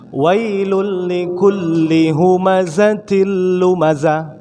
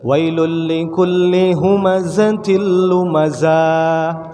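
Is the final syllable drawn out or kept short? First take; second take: short; drawn out. First: The final syllable is kept short. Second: The final syllable is drawn out long. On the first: The speaker calls it right. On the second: The speaker calls it wrong.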